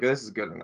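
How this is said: It is said in a grudging, dismissive tone. The result is not really acceptable. "you're saying it's not really good enough"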